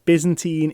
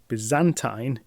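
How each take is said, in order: First: It is pronounced the American way. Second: It is pronounced the British way. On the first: "is in fact the American one" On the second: "is the British pronunciation"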